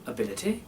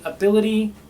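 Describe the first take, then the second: First: The final vowel is a short ih sound. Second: The final vowel is a long ee sound. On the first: "make it an I" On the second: "instead of saying"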